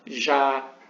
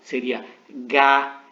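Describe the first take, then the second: First: It starts with a soft zh sound. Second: It starts with a hard g sound. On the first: The speaker calls it wrong. "com som de G, de perdão, de J" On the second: The speaker calls it right. "Não, seria Gá ... esse som duro, como na palavra gato"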